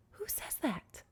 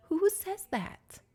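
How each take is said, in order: First: High, soft incredulous question; hushed disbelief. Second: High-pitched, drawn-out incredulous question; appalled disbelief. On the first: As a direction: ask it in a small, appalled voice. Repeats appalled question more quietly. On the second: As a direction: squeal it slowly in disbelief. Appalled at guest's remark. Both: Acted.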